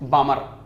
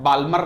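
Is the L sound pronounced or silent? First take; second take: silent; pronounced. First: The L sound is silent in the word. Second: The L sound is pronounced in the word. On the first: The speaker calls it right. "एल silent होता है" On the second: The speaker calls it wrong. "बाल्मर नहीं"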